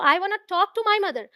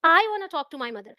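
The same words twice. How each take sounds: First: The stress is on the word talk. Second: The stress is on the word I. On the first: The speaker wants to talk, not just see her. "ऐसा नहीं है कि सिर्फ उन्हें देखना है मुझे" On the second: The speaker, not someone else, wants to talk. "अगर मैं आई पर स्ट्रेस दूं"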